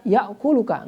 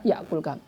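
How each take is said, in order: First: A 'u' vowel is heard before the final 'ka'. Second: No vowel is heard before the final 'ka'. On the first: The verb is not in the jussive mood. The speaker calls it right. "Maka dibaca ya'kuluka" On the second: The verb is in the jussive mood. The speaker calls it wrong. "nggak bisa dibaca ya'kulka"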